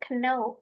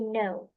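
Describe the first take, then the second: First: The K sound is pronounced at the start. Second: The K sound is silent at the start. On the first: The speaker calls it wrong. "Jadi bukan know" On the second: The speaker calls it right. "huruf K-nya silent aja"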